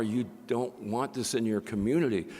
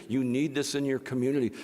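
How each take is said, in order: First: Said in the usual way. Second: Need said a little louder, rising from the plain take; stress on need. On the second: Shown as a demonstration. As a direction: lean into the word need to set it against don't want.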